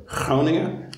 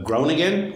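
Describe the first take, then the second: First: Groningen said the Dutch way, drawn out slowly; Dutch-style "Groningen" with a throaty opening G; Dutch pronunciation. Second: Said in the usual way. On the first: Shown as a demonstration. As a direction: say "Groningen" slowly as locals in the Netherlands do. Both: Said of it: "as they say here in the Netherlands".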